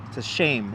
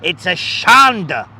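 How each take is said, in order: First: Said in the usual way. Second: Shanda said slowly, stressed on SHAN; drawn out Yiddish shanda, loud and slow; a slow loud shanda like a Yiddish grandma; Yiddish word. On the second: Shown as a demonstration. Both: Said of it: "you learn some Yiddish words".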